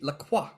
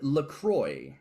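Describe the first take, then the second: First: The name gets a French-style pronunciation. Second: The name gets an American-style pronunciation. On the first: It refers to the fashion designer. The speaker calls it right. "Sweetie, that she only wears La Croix" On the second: It refers to the drink brand. The speaker calls it wrong. "they didn't tell nobody how to say it, and so they call it LaCroix"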